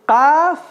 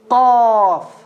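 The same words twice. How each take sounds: First: The first sound is light, not deep. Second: The first sound is heavy and deep. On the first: The speaker calls it wrong. "First or second?" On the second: The speaker calls it right. "Second. Because the qaf is a what? Heavy letter"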